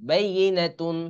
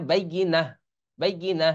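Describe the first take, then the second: First: "বাইয়িনাতুন" with "তুন" fully sounded; full ending. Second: "বাইয়িনা" closing on a breathed h; pausal ending. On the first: Teacher reading the spelled word unstopped, "বাইয়িনাতুন" with full ending. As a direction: keep the t and nasal ending in "বাইয়িনাতুন". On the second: Teacher showing the word when one stops, "বাইয়িনা" with pausal h. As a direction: stop on "বাইয়িনা", dropping "তুন" for h. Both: Shown as a demonstration. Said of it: "আর থামলে হবে".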